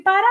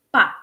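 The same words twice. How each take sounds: First: Said in the usual way. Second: Pa as a single clipped syllable. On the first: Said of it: "En vez de decir para". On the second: Shown as a demonstration. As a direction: drop the ending of para down to pa. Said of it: "decimos pa".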